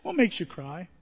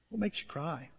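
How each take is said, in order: First: Said in the usual way. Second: Much softer, drawn-in asking of the question; softer repeat. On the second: Shown as a demonstration. Preacher to congregation, asking again much softer. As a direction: let the question sink in quietly.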